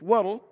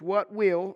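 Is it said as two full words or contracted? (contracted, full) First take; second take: contracted; full. First: The two words merge into one contracted word. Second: Both words are said in full. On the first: "it's a contraction" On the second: "It's what will"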